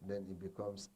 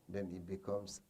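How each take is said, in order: Both takes have the same delivery.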